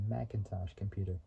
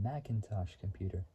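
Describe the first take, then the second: No difference in how they are said.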